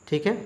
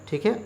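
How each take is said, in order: No difference in how they are said.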